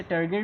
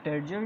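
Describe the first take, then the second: First: टर्गर with a hard g; hard-g pronunciation. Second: टर्जर with a j sound; soft-g pronunciation. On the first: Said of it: "इसे टर्गर भी कहते हैं". (टर्गर में कठोर "ग" का उच्चारण) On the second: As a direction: say टर्जर with g as in "gem". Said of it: "टर्जर भी कहते हैं". (टर्जर में "ज" का उच्चारण) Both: Shown as a demonstration.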